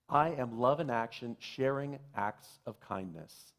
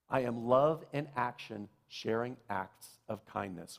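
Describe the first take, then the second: No difference in how they are said.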